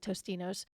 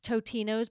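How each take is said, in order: First: It is said with an s before the t. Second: It is said without an s before the t. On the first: "everybody calls it Tostinos" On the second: "I think it's Totino's"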